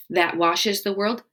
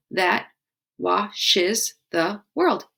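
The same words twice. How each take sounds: First: Said in the usual way. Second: That washes the world said very slowly, each syllable spaced; slow syllable count. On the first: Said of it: "And then". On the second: Shown as a demonstration. Teacher counting syllables of the haiku line, slowly. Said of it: "Five syllables".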